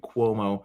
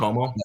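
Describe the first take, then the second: First: The name starts with a gliding kw sound. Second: The name starts with a plain k sound. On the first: The speaker calls it right. "a good liquid you" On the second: The speaker calls it wrong. "Did I say Como?"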